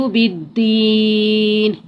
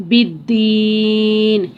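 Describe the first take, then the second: No difference in how they are said.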